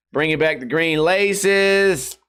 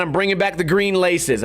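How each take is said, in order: First: "Bringing back the green laces" drawn out slowly, each word weighed; slow emphatic announcement. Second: Said in the usual way. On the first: Shown as a demonstration. Streamer proudly announcing to fans, slow and emphatic. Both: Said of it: "I bet you guys are gonna be happy".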